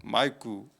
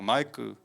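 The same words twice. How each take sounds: First: The name is said imitating another person's pronunciation. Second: The same.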